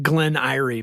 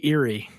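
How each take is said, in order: First: "Erie" said as EYE-ree; first vowel of "Erie" as in "eye"; eye-ree pronunciation. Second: "Erie" said as EER-ee; first vowel of "Erie" as in "ear"; ear-ee pronunciation. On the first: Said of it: "I called it Glen Erie, but you say Erie". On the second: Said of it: "but you say Erie". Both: Shown as a demonstration.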